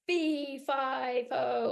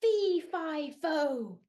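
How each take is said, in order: First: Loud giant chant; lightly voiced giant. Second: Loud booming giant call; giant's shout. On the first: Shown as a demonstration. Storyteller showing kids a giant, loud chant. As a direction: stomp it out like a giant. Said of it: "Can you be a giant?". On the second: Acted. Giant waking up, loud booming shout. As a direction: boom it like a giant. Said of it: "He shouted".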